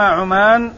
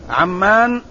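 First: عمان as ʕu-MAAN, single m; Oman pronunciation. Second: عمان as ʕam-MAAN, with long aa; Amman pronunciation. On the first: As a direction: say عمان with short u, then long aa. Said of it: "بضم العين وفتح الميم الممدودة". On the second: Teacher naming today's city, عمان said ʕammaan with doubled m. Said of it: "بفتح العين وتشديد الميم الممدودة". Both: Shown as a demonstration.

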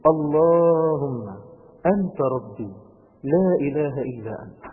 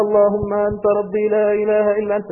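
First: Slow, drawn-out, reflective recitation; slow and gentle. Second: Fast, loud, rattled-off prayer by habit; rushed rote recitation. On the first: Preacher showing youths how to recite it slowly. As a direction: savour each word slowly. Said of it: "أنا عايز بس بالراحة كده". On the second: Preacher mocking how youths recite it fast. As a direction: rattle it off without feeling. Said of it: "مش عايزكم تقولوها زي ما بنعملها كده". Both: Shown as a demonstration.

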